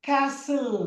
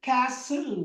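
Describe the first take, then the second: Both takes have the same delivery.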